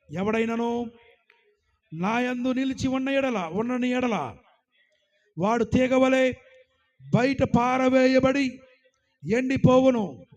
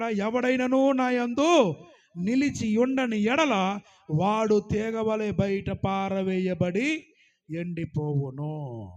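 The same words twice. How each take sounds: First: Loud verse reading. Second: Slow emphatic reread. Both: Acted. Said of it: "ఏమంటున్నాడు ఇక్కడ?".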